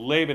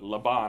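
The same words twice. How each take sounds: First: The name has an American English pronunciation. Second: The name has an Israeli Hebrew pronunciation. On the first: This is how the name is said in the States. "So Laban is what we'll call him" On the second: This is how the name is said in Israel. "is how he's pronounced in Israel culture"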